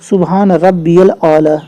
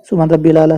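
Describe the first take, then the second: First: The middle word is said as rabbiyal. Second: The middle word is said as rabbil. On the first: The speaker calls it right. "सुभान रब्बियल आला, यानी रब रे ई बीच में ये है" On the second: The speaker calls it wrong. "बहुत सारे लोग पढ़ते हैं, ... रब्बिल आला नहीं है"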